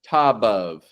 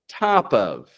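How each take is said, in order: First: The linking consonant sounds like a voiced B. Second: The linking consonant is a light, soft P. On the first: The speaker calls it wrong. "We don't want to pronounce this" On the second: The speaker calls it right. "a light, soft P"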